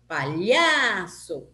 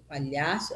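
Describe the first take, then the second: First: LHA in "Palhaço" drawn out and emphatic; "Palhaço" with a long middle syllable; stress on LHA. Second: Said in the usual way. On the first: Shown as a demonstration. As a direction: slowly call "Palhaço", holding the middle syllable. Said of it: "Palhaço é a penúltima forte". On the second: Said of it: "é a penúltima forte também".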